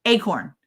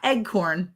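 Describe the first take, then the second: First: "Acorn" with a long AY first syllable; correct pronunciation. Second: "eggcorn" with a hard g, slowly; mispronounced acorn. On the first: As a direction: say "Acorn" as AY-corn, no g. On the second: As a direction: say "eggcorn" slowly as egg-corn. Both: Shown as a demonstration. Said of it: "Not eggcorn".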